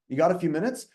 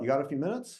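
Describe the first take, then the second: First: It is said loudly with forced, intense energy. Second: It is said softly with relaxed, casual energy. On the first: The caller mistakes volume for enthusiasm. The speaker calls it wrong. "it was like really intense" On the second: The caller sounds at ease and unpressured. The speaker calls it right. "casual, chill tonality"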